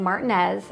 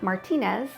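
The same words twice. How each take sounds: First: The name is said in an English way. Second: The name is said in a Spanish way. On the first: This is how locals say it. "I'm saying Martinez" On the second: This is the original Spanish pronunciation. "and not Martinez"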